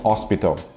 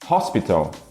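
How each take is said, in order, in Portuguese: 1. O H inicial é mudo, a palavra começa na vogal. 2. O H inicial é pronunciado como um som aspirado. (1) "e não hospital"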